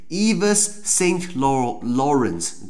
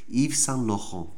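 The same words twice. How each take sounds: First: The name is said with English pronunciation. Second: The name is said with French pronunciation. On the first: The speaker calls it wrong. "如果你用英文来念" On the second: The speaker calls it right. "可是法文就是"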